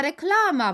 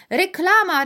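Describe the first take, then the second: First: High repeated call, less loud. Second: Very high, loud excited shout. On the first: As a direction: shoppers calling out again. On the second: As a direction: call it out to the whole store. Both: A narrator's reading. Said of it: "wołali kupujący".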